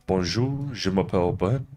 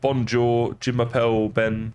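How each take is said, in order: First: It is said with a careful French accent. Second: It is said with a flat English accent. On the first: The speaker is trying to sound native. The speaker calls it right. "put on a bit of a try and pronounce pronounce the words properly" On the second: The speaker is not making an effort. The speaker calls it wrong. "Whereas I'd be like"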